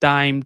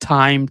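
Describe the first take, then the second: First: The t is said without a puff of air. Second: The t is said with a strong puff of air. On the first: The speaker calls it wrong. "Normally আমরা বলি কি টাইম ... তাহলে কিন্তু আমাদের সুন্দর হচ্ছে না" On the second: The speaker calls it right. "নেটিভদেরকে খেয়াল রাখবেন, তারা কিন্তু টাইম"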